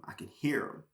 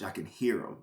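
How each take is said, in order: First: A soft, breathy whisper. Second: Said in the usual way. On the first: Retold or imitated. Telling his story, he echoes the inner voice in a whisper. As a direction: hush it like a voice only you can hear. Echoing the Holy Spirit's voice.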